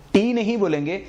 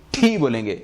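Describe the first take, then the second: First: ٹی said as a plain "tee"; wrong sound named. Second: ٹھی with a puff of air after the t, "thee"; aspirated demo. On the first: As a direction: say ٹی with no breath after the t. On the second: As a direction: release breath hard on ٹھی. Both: Shown as a demonstration.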